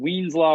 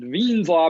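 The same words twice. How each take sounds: First: The name is said with an English pronunciation. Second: The name is said with a German pronunciation. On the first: The speaker calls it wrong. "don't pronounce it Wien's law" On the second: The speaker calls it right. "We pronounce it Wien's law because that's how he pronounced his name"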